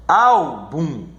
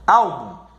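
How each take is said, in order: First: "Álbum" split as a long ÁL, then bum; stressed first syllable. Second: Said in the usual way. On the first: Shown as a demonstration. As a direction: lean on ÁL in "Álbum" and detach bum. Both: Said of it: "na sílaba mais forte".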